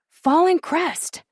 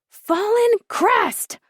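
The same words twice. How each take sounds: First: It is said a little louder. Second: It is shouted loudly.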